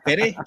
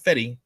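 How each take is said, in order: First: The name ends with an 'eh' sound. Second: The name ends with an 'ee' sound. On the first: The speaker calls it right. "It is Fede, short for Federico" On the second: The speaker calls it wrong. "It's not Fetty, all right, not like a Fetty Wap"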